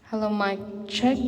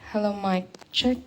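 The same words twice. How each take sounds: First: The voice has an added echo effect. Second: The voice sounds dry, with no echo. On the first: "Lagyan natin ng effects. ... fifty-nine echo" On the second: "Try natin walang effects"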